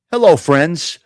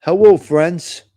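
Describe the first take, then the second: First: A light parody of a video host's greeting; mild mock greeting with a rising end; mocking Giacomo. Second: Hello, friends stretched out slowly in a light parody; lightly mocking, slowed greeting. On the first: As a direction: toss off a hint of his cheesy hello. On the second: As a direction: drag out his hello to mock it. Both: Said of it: "that guy Giacomo".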